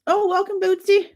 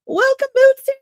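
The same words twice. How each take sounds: First: Said in the usual way. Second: High, louder welcome; excited greeting. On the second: Real, not acted. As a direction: call out the name happily. Greeting a chatter again.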